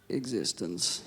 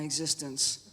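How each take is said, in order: First: The word is said in a deeper voice. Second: The word is said in an ordinary voice.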